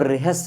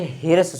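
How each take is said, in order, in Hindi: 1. r ध्वनि h ध्वनि से पहले आती है। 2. h ध्वनि r ध्वनि से पहले आती है। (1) "तो पहले रा को फिर हा को" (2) "बहुत बच्चे ह्रस्व स्वर बोलते हैं, ये गलत उच्चारण है"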